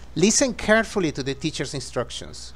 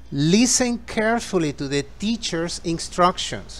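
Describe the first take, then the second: First: The sentence is spoken at a faster pace. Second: The sentence is spoken at a slower pace.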